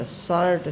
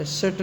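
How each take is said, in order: First: "शर्ट" said with a drawn aa, "saart"; open aa vowel. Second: "शर्ट" misread short, like "sert"; wrong short vowel. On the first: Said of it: "ई का उच्चारण आ भी". ("शर्ट" में खुला आ, "सार्ट" जैसा) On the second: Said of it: "शर्ट नहीं पढ़ेंगे". ("शर्ट" को छोटे स्वर से "सर्ट" जैसा गलत बोलकर) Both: Shown as a demonstration.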